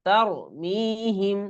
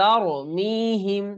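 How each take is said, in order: Both takes have the same delivery.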